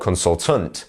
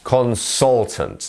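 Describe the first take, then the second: First: The stress is not on the middle syllable. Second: The stress is on the middle syllable. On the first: The speaker calls it wrong. "or consultant" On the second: The speaker calls it right. "our stressed syllable is the sol bit"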